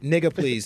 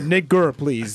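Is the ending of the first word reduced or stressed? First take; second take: reduced; stressed. First: The first word ends in a soft, reduced vowel. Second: The first word ends in a stressed, hard ending. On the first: The speaker calls it wrong. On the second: The speaker calls it right.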